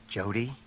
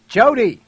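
First: Soft, low, coaxing use of the name; gentle, steadying address; calm. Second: High, loud scream of a name; urgent full-voiced shout. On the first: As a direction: say the name calmly and quietly. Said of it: "Herbert said calmly". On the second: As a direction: scream the name to jolt her. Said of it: "Herbert screamed". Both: A narrator's reading.

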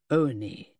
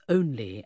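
First: "only" said in the dialect of rural Sussex; Sussex dialect pronunciation. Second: Said in the usual way. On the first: Shown as a demonstration. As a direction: demonstrate "only" as a Sussex local says it. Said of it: "the dialect in the southwestern quadrant".

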